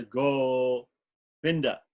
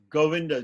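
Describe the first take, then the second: First: "Govinda" stretched to about three times its length, each syllable held; very slow drawn-out demo. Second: Said in the usual way. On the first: Shown as a demonstration. Teacher slowing down Govinda to show its root syllable. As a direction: draw out "Govinda" so every syllable is heard. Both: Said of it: "The root of Govinda".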